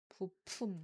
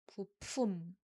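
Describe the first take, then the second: First: The word starts on a low pitch. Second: The word starts on a low pitch.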